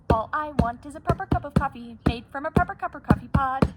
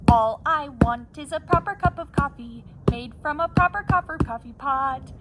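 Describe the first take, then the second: First: It is said at a fast pace. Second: It is said at a normal pace.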